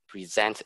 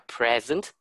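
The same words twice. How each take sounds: First: The stress is on the second syllable. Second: The stress is on the first syllable. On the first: It is the verb, to show or give. "present is verb" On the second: It is the noun, a gift or the current time. "a present is noun"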